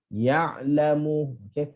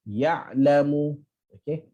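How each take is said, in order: Both takes have the same delivery.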